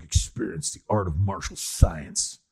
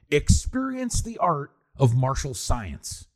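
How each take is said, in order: First: "Experience the art of martial science" dropped lower, flat and unimpressed; lower deadpan tagline. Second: "Experience the art of martial science" drawn out slowly like a trailer; slow movie-tagline read. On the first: Mocking the film's line to his co-host, lower deadpan. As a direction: say it like a bored voiceover after a kick. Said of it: "it's like". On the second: Podcaster quoting a goofy movie line, slow mock-epic read. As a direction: savor each word like a cheesy tagline. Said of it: "I have a good one". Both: Retold or imitated.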